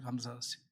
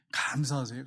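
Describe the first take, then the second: First: 감사하세요 repeated much softer, fading away; soft echo. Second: Said in the usual way. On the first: Shown as a demonstration. Preacher gently echoing his plea, much softer. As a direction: let 감사하세요 fade to a hush.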